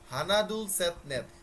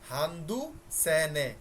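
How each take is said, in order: First: Each number is said in its full form. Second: Each number is said in a clipped, shortened form. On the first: This is the plain counting form. "আপনাদেরকে বলছিলাম" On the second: This is the form used before counted things. "ব্যবহারের ক্ষেত্রে আমরা হান্দু সে নে এভাবে উচ্চারণ করব"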